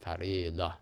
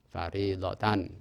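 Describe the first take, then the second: First: The word ends with a soft h sound. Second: The word ends with a full -tan sound. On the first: The reading stops on this word. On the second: The reading continues without stopping.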